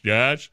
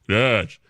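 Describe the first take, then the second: First: It is said in a normal voice. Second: It is said in a very deep voice.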